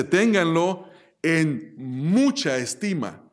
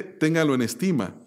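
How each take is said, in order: First: Slow, leaning hard on "mucha"; "mucha" drawn out and weighted, a falling tune to the end; stress on mucha. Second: Said in the usual way. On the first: Shown as a demonstration. Preacher correcting the verse, stress on "mucha". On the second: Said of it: "pero no dice".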